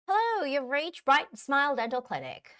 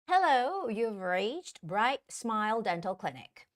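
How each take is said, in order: First: It is read faster, at natural speed. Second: It is read slowly and deliberately. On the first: The speaker calls it right. "naturally a little bit faster" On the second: The speaker calls it wrong. "first time it's going to be slow"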